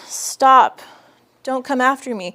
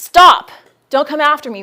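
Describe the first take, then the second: First: It is said weakly and timidly. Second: It is said loudly and forcefully.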